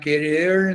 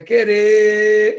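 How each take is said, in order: First: The final R sound is clearly pronounced. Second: The final R sound is left out. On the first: The speaker calls it wrong. "Querer não é querer" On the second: The speaker calls it right. "mas é querer, e, e a gente engole o R"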